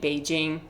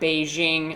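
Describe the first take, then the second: First: It is said with Mandarin tones and sounds. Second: It is said with a plain English pronunciation. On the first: "I be saying Beijing" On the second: "I don't be saying that Beijing"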